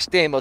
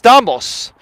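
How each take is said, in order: First: The name is said with American pronunciation. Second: The name is said with Greek pronunciation. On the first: This is the adapted form most people use. "we just say Stamos because that's, you know, what everyone says" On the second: This is the original form of the name. "So it's Stamos"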